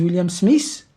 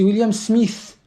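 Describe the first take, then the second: First: Smith ends with a plain s sound. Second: Smith ends with a th sound. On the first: The speaker calls it wrong. "Les Français disent William Smith" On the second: The speaker calls it right. "c'est William Smith"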